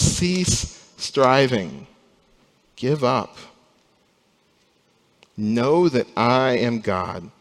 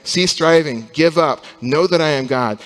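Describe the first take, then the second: First: Slow, steady voice of God; calm divine command. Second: Louder, commanding voice of God to the nations; God's stern command. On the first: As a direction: let each phrase land slowly and gently. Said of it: "And God says". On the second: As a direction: proclaim it as an order to give up. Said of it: "It's a message to those nations saying". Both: Acted.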